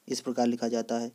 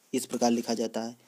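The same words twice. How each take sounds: The two takes are said the same way.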